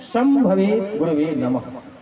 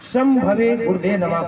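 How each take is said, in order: First: The middle word is said with a V sound. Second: The middle word is said with a D sound. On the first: The speaker calls it right. "वास्तविकता यह है" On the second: The speaker calls it wrong. "इसके भी उच्चारण बहुत लोग गलत गलत तरीके से करते हैं"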